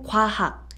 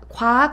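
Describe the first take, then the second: First: The h sound in the second syllable is clear. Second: The h sound in the second syllable is dropped. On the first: The speaker calls it right. "정확하게 발음해 주시면 너무 좋습니다" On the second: The speaker calls it wrong. "과학 아니고"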